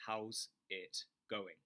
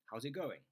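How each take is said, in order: First: Slow demo. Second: "How's it going?" said quickly with pitch up; a brisk, lifted "How's it going?"; quicker, higher demo. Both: Shown as a demonstration. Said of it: "shadow me".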